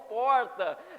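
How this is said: The R is said in a São Paulo accent. "Eu sou paulista ... Eu falo porta"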